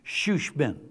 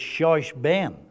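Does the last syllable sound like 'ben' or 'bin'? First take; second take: bin; ben. First: The last syllable is said like 'bin'. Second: The last syllable is said like 'ben'. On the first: The speaker calls it right. "But the pronunciation is shushbin" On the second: The speaker calls it wrong. "if you're going by the spelling, it looks like it's shushben"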